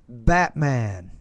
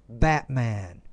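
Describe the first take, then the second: No difference in how they are said.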